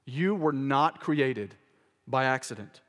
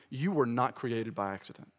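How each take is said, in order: First: "You were not created by accident" spaced out slowly, weight on You; slow emphatic repeat. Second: Said in the usual way. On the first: Shown as a demonstration. Preacher repeats to the congregation they were not created by accident, slow and emphatic. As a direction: drive each word home slowly. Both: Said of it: "repeats it slowly".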